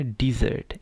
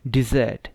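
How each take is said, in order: First: डेजर्ट said as di-ZERT with a clear ee in the first syllable; ee sound. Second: डेजर्ट with the stress on the first syllable, DE-zert. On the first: Teacher contrasts the second word with the noun, ee sound first. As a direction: open डेजर्ट with an ee sound and lean on the second half. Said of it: "उसकी sound ई है". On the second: Teacher shows the noun डेजर्ट to the class, first syllable stressed. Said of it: "पहले पे जो है वो stress है". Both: Shown as a demonstration.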